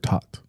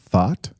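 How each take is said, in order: First: The word begins with a t sound. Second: The word begins with a th sound. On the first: The speaker calls it right. "It's just a t" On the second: The speaker calls it wrong. "you're saying it with a th"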